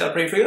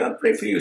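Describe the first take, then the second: First: Quoting what people say, lightly mocking. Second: Higher, sarcastic echo of the phrase. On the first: Vlogger quoting critics with a light mocking lilt. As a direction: repeat the stock phrase with a faint sneer. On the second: Pretend. Vlogger mocking critics' prayers, higher and sarcastic. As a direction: throw the phrase back at them, mocking. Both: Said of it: "people say".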